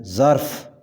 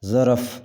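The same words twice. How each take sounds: First: ظرف as one syllable: zarf; correct pronunciation. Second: ظرف in two syllables: za-raf; wrong pronunciation. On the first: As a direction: close ظرف on a joined "rf", zarf. (ظرف کا صحیح تلفظ، "ر" ساکن) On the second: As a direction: slip a vowel into ظرف, "za-raf". (ظرف کا غلط تلفظ، "ظَرَف") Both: Shown as a demonstration. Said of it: "صحیح تلفظ ہے".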